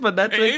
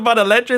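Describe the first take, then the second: First: The name is said without an 'el' sound inside. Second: The name is said with an 'el' sound inside. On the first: The speaker calls it right. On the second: The speaker calls it wrong. "I've said it wrong. It's not even Man Electric"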